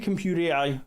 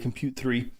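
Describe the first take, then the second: First: The name ends with the letters 'A I'. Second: The name ends with the number 'three'. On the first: "I say compute A I" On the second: "A lot of other people say compute three"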